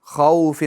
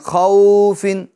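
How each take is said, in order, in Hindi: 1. स्वर को नरमी से और बराबर अदा किया गया है। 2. स्वर को लंबा खींचा गया है। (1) "बल्कि नरमी के साथ हमें अदा करना है" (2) "अब इसको खींचना भी नहीं है, खौफिन ऐसा भी नहीं करना है"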